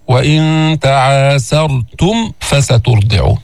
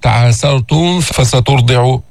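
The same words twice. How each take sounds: First: تعاسرتم ending in a crisp m before فسترضع; slow chant, distinct m in تعاسرتم before the f; clear mim. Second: تعاسرتم ending in a blurred hummed m running into فسترضع; wrong ikhfa. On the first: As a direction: close the lips cleanly on the mim of تعاسرتم, no hum. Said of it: "من نظهر الميم عند الفاء". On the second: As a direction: hide the mim of تعاسرتم in the following f. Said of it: "حتى ما يصير إخفاء،". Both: Shown as a demonstration.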